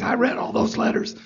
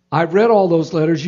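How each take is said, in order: First: Husky, soft imitation of a hushed, raspy voice. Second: Said in the usual way. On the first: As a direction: imitate a husky voice, higher and softer. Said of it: "you know, his husky voice". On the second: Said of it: "I can't do his accent".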